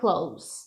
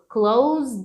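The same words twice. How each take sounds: First: The word ends with an s sound. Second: The word ends with a z sound. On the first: It means near. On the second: It means to shut something.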